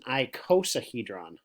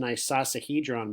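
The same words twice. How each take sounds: First: The start is said like 'cosine'. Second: The start is said like 'isosceles'. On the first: The speaker calls it right. "like cosine" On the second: The speaker calls it wrong. "because I've learned about isosceles triangles, I call this an icosahedron, but that's actually not the correct way to say it"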